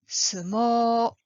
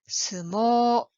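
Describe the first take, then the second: Both takes have the same delivery.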